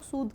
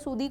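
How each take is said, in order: First: The word ends on a plain d sound. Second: The word ends with an added 'ee' vowel. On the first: The speaker calls it right. "इसको pronounce हम लोग सूद कर रहे हैं" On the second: The speaker calls it wrong. "सूदे सूदी कोई नहीं बोलेगा"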